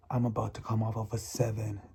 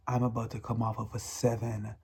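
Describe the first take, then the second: No difference in how they are said.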